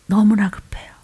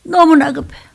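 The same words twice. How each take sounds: First: Said in the usual way. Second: 너무나 pushed up higher; urgent emphasis on 너무나; urgent stress. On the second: Shown as a demonstration. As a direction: lean hard on 너무나 to press urgency. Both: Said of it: "악을 써야 돼".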